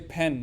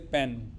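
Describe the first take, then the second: First: The p is released with a puff of air. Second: The p is released without a puff of air. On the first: The speaker calls it right. "In English, you say pen" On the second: The speaker calls it wrong. "you never say pen"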